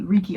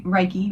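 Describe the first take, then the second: First: Reiki said as REE-kee; second try at Reiki, REE-kee; corrected pronunciation. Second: Reiki said as RYE-kee; first try at Reiki, RYE-kee; unsure pronunciation. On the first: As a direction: say Reiki with a first syllable like "ree". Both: Real, not acted. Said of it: "I always forget how to say it".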